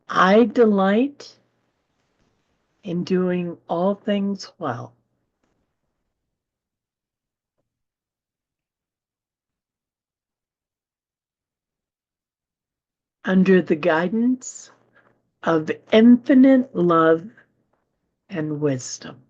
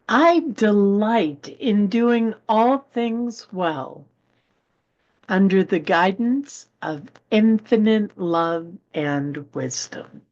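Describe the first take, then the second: First: The sentence is read at a slower pace. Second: The sentence is read at a normal pace.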